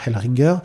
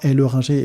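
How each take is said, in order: First: The middle E is dropped. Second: The middle E is clearly pronounced. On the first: The name is not said the French way. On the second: The name is said the French way.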